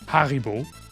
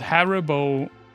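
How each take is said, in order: First: It is said with a German pronunciation. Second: It is said with an English pronunciation.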